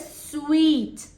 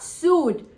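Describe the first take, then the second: First: The word sounds like 'sweet'. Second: The word sounds like 'suit'. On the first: The speaker calls it right. "S U I T E is pronounced as sweet" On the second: The speaker calls it wrong. "It is not suit"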